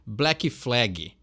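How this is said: It is said with a Brazilian Portuguese accent. The speaker calls it wrong.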